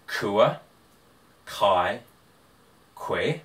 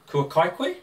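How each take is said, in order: First: The voice falls at the end like a statement. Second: The voice rises at the end like a question. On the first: It states that the listener has eaten. "you have eaten" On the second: It asks whether the listener has eaten. "have you eaten?"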